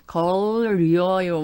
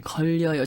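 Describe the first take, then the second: First: It is said with an English L then R. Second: It is said with a native Korean liquid sound.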